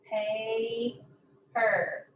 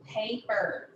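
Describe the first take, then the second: First: "Paper" with a long first syllable, gap, then the second; split syllables. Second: Said in the usual way. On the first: Shown as a demonstration. Teacher showing where the syllable ends, "Paper" split in two. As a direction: break "Paper" into two separate beats. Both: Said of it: "The end of the first syllable".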